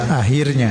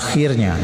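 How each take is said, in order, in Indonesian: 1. Konsonan setelah vokal pertama adalah h yang lembut. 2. Konsonan setelah vokal pertama adalah kh yang bergesek. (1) "Ini salah" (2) "Yang benar adalah akhirnya"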